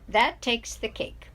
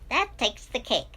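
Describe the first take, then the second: First: It is said in a normal voice. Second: It is said in a high helium-like voice.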